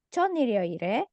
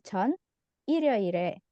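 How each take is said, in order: First: The words run together without a pause. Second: There is a pause after the first word. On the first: The speaker means before Sunday. "ketika dia bacanya nyambung berarti 전 di sini artinya sebelum" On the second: The speaker means 'I' did something on Sunday. "Kalau ada spasi jedanya di sini 전 berarti artinya 저는 saya"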